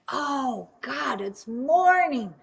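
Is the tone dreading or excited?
excited. It sounds happy and excited about the morning.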